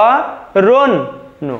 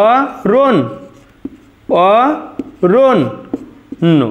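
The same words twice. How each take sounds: First: অরণ্য drawn out very slowly with a long ন্ন; correct pronunciation, very slow. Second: অরণ, then অরণ্য stretched very slowly with a long ন্ন; correct pronunciation, drawn out. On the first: Teacher giving the final correct pronunciation, very slowly. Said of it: "অরণ্য এর শুদ্ধ উচ্চারণটি হয়ে যাবে". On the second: Teacher modelling the correct pronunciation, very slow and deliberate. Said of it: "এটাই আমাদের শুদ্ধ উচ্চারণ". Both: Shown as a demonstration.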